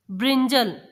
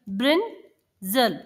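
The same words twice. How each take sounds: First: Said in the usual way. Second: brinjal broken in two, Brin, pause, जल; split into syllables. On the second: Shown as a demonstration. Teacher showing children two syllables, brinjal split by a pause. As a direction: say brinjal as two slow, separate beats. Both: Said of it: "दो अलग-अलग sounds को".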